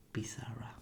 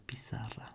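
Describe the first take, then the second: No difference in how they are said.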